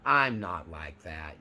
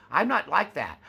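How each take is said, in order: First: Low, slow, brushing it off; mock dismissive denial. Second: Higher and louder, NOT pushed hard; defensive mock denial. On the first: Grandiose narcissist shrugging off criticism, lightly dismissive. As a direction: sniff at the accusation, unbothered. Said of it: "will just let it all roll off their shoulder". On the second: Covert narcissist rejecting criticism, hammed-up rising denial. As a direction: bristle and push back on "not". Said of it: "with each denial, the pitch raises".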